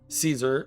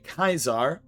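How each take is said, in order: First: The name begins with an S sound. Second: The name begins with a K sound. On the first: The speaker calls it wrong. "sorry, I'm going to pronounce it uh, the correct way" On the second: The speaker calls it right. "the correct way"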